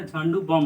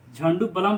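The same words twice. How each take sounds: First: "Jhandu बम", no L in the second word; silent L. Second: "झंडू बलम", ba-lam in two syllables; wrong pronunciation. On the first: Teacher correcting the brand name, Jhandu बम with silent L. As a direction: say Jhandu बम with बम as bom. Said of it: "झंडू बम होता है". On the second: Teacher quoting how you read the brand, झंडू बलम with audible L. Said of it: "झंडू बलम नहीं होता". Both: Shown as a demonstration.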